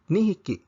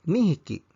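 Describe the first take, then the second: No difference in how they are said.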